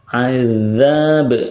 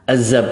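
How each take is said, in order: First: The middle consonant is a voiced th-like sound. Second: The middle consonant is a plain z sound. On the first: The speaker calls it right. "Yang benar adalah azab" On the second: The speaker calls it wrong. "padahal itu zai"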